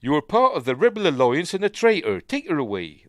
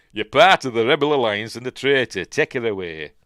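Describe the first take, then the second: First: Put-on high, loud Bristol accent; bad Vader line in broad Bristol; David Prowse. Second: Put-on loud, broad Yorkshire accent. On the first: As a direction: West Country Bristol accent, loudly declaimed. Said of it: "That was what his accent was like". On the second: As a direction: declaim it in thick Yorkshire. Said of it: "From Yorkshire, he'd be saying".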